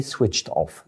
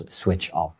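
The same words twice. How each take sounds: First: "switched off" with the T sound ending "switched"; correct final -ed. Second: "switched off" said as "switch off"; dropped -ed ending. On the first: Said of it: "we say switched off". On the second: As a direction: leave the T sound off the end of "switched". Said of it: "We don't say he". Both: Shown as a demonstration.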